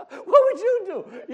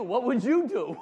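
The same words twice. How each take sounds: First: "What would you do?" slow, much higher and louder, through laughter; exaggerated laughing repeat. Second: "What would you do?" asked louder and higher with a chuckle; laughing question. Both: Shown as a demonstration. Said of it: "You're hearing the same words, right?".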